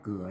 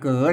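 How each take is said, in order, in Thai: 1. พูดด้วยสำเนียงไทยมาตรฐาน 2. พูดด้วยสำเนียงไทยโย้ง (1) "อ่านว่าเกลือ" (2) "ออกสำเนียงอันตั้งไตไตยองหน่อย"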